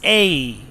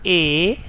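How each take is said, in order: First: Letter A as a gliding "ay-ee" diphthong; British pronunciation. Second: Letter A as a pure, steady vowel "eh"; Pakistani pronunciation. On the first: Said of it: "correct pronunciation is A". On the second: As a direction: say A as "eh", without any glide. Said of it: "It is taught A". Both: Shown as a demonstration.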